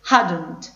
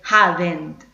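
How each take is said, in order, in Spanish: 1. No se oye ningún sonido de vocal antes de la n. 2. Se oye un sonido de vocal claro antes de la n. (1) "no tenemos el sonido de la E ... Esa es la forma correcta" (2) "No se dice hadn't"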